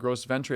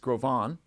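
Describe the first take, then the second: First: The name is said with an anglicized pronunciation. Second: The name is said with a French pronunciation. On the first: The speaker calls it wrong. "It's not" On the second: The speaker calls it right. "It's a French name. it's"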